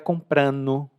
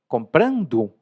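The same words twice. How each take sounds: First: The ending is reduced, dropping the d sound. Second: The ending is said fully with a clear d. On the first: "quando a gente fala relaxado, a gente muda" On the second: "muitos dos gerúndios que eu pronuncio lentamente"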